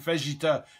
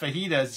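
First: The j is said like a French j. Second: The j is said like an h sound. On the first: The speaker calls it wrong. "she was pronouncing the J like J instead of he" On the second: The speaker calls it right. "instead of fajitas"

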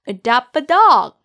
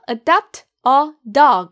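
First: The words run smoothly together without breaks. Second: Each word is said separately with breaks. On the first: The speaker calls it right. "부드럽게 이어서 발음하세요" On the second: The speaker calls it wrong. "이렇게 끊어 말하지 마시고"

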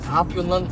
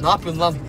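First: The phrase is said in a calm, even way. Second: The phrase is said in a hurried, hectic way.

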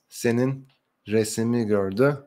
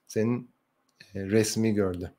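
First: A vowel is heard between the S and M. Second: No vowel is heard between the S and M. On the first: This is the written form. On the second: This is the everyday spoken form.

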